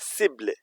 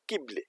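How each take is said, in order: First: The word begins with a soft S sound. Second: The word begins with a hard K sound. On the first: The speaker calls it right. "It will be la cible" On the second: The speaker calls it wrong. "not quible"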